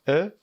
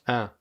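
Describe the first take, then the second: First: The vowel is closed, with the mouth narrower. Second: The vowel is nasal, sounding through the nose. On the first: "Une prononciation plus fermée" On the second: "une prononciation plus nasale"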